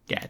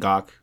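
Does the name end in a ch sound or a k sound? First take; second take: ch; k. First: The name ends with a ch sound. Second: The name ends with a k sound. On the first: The speaker calls it right. "it's like catch with a G, so it's Gatch" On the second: The speaker calls it wrong. "I always pronounce it wrong"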